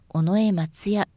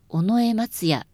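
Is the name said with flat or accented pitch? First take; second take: flat; accented. First: The name is said with flat pitch. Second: The name has a pitch accent, not flat. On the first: The speaker calls it right. "平らに言います" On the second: The speaker calls it wrong. "ではなく"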